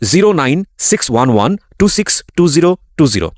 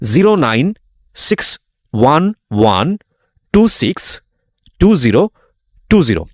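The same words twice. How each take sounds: First: The number is read at normal speed. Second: The number is read slowly.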